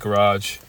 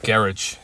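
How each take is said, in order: First: The word is said in an American accent. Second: The word is said in a British accent. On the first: The speaker calls it wrong. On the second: The speaker calls it right.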